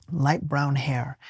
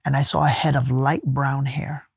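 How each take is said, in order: First: Slow, much softer, lingering repetition; soft, awed echo. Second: Said in the usual way. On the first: Real, not acted. Recalling his vision of her, slow and awed. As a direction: repeat it slowly, savouring it.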